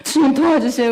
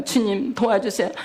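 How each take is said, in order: First: Higher, louder cry for help; mother praying aloud as the police stop the car; pleading prayer. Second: Said in the usual way. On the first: Retold or imitated. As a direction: beg the Lord in a rush of panic. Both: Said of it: "막 기도한 거예요".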